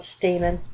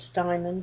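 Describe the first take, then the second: First: It is said as two syllables, 'stay-men'. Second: It is said with an added 'n', 'stine-man'. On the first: This is how other people say it. "Some call it Stamen" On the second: This is how the speaker always thought it was said. "I always thought it was Steinman"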